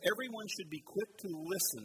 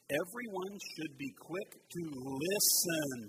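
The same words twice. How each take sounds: First: Said in the usual way. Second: Slow reading with "listen" drawn out and punched; stress on listen. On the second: Shown as a demonstration. Preacher leading congregation in a verse, emphasizing "listen". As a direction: lean hard on the word "listen". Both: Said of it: "let's emphasize the word listen".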